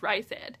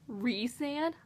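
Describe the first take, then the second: First: The first syllable does not sound like 'Reese'. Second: The first syllable sounds like 'Reese'. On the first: "I read it as Rysand, and that's how I thought you said his name" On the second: "like Reese's"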